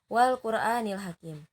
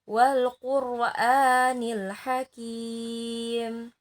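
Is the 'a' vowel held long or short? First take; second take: short; long. First: The 'a' vowel is held short. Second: The 'a' vowel is held long. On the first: The speaker calls it wrong. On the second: The speaker calls it right. "A-nya agak panjang ya"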